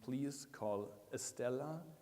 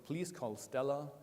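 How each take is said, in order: First: It is spoken in a Sri Lankan English accent. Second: It is spoken in an American English accent. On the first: "in Sri Lankan English, it's likely to be" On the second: "It was meant to be American English"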